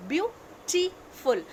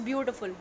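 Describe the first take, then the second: First: "beautiful" stretched very slowly, each syllable spaced; teacher slowing "beautiful" down to show its three syllables; drawn out by syllable. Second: Said in the usual way. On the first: Shown as a demonstration. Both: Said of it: "three syllables are there".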